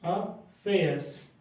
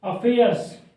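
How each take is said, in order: First: "affairs" को बहुत धीमे, हर ध्वनि खींचकर; शब्द को तोड़-तोड़कर धीमा बोलें; धीरे-धीरे. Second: डिक्टेशन वाली आवाज़. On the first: (छात्रों को "ए" की ध्वनि सुनाने के लिए बहुत धीमा उच्चारण) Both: Shown as a demonstration. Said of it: "ए की साउंड आ रही है पहले".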